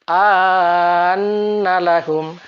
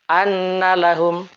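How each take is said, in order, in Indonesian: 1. Vokal pertama dibaca panjang. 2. Vokal pertama dibaca pendek.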